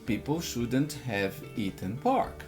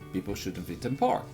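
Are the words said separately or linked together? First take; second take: separately; linked. First: Each word is said separately and fully. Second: The middle words are reduced and run together. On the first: "você está aprendendo assim" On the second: "o correto é"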